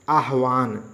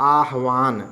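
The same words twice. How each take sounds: No difference in how they are said.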